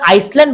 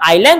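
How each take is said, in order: First: The word is said with an s sound. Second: The word is said without an s sound. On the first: The speaker calls it wrong. "এটাকে আইসল্যান্ড বলা যাবে না" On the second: The speaker calls it right. "ইংলিশে বলি আমরা আইল্যান্ড"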